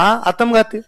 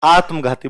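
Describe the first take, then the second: First: आत्मघाती with an added vowel, "aa-tam-gaa-ti", no breathy gh; wrong pronunciation. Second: आत्मघाती with the half त joined, "aatm-ghaati", breathy gh; correct pronunciation. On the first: Retold or imitated. Student mispronouncing the word for his teacher, आत्मघाती split into atamgati. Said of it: "आधे अक्षर नहीं बोल पाते". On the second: Shown as a demonstration. Teacher modelling the word for the student, आत्मघाती with the cluster and breathy gh. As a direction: clip the half letter in आत्मघाती, aspirate the gh. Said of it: "बोल देख".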